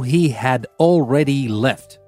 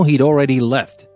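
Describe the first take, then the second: First: The word had is said in full. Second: The word had is contracted onto he. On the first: The speaker is emphasizing something or is annoyed. "usually people don't say he had already left unless you're stressing something out" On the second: It is a neutral conversational statement. "You usually use it in contracted form"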